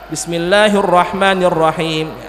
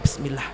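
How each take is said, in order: First: It is said aloud, audibly. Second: It is said quietly, under the breath.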